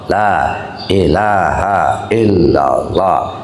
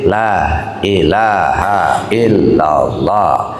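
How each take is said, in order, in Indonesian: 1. Frasanya diucapkan penuh dan jelas. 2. Frasanya diucapkan penuh dan jelas.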